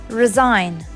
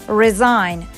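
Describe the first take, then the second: Both takes have the same delivery.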